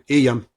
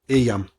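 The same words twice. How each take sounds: First: The words run together into here yam. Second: The words run together into here yam.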